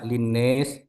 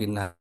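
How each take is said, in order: First: The last vowel is tilted toward an e sound. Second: The last vowel is a plain open a sound. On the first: "dibaca imalah" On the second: "dibaca seperti normal"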